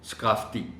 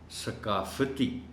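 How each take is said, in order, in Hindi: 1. f और t के बीच कोई स्वर नहीं बोला जाता। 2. f और t के बीच एक छोटा स्वर बोला जाता है।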